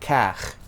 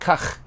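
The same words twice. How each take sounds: First: The vowel is dragged out long. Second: The vowel is short and clipped. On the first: The speaker calls it wrong. "and not kach" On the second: The speaker calls it right. "I do not drag that sound"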